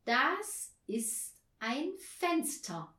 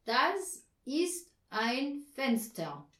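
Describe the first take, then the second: First: Slow, higher model sentence; slow explaining. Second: Slow, louder dutiful repetition; well-behaved pupil. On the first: Anja teaching the word for window, slowly. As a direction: spell it out word by word. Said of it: "erklärte Anja". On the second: Herr Marconi repeating Anja's sentence, like a good pupil. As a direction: recite it obediently, word by word, louder. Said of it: "wie ein artiger Schüler". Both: A narrator's reading.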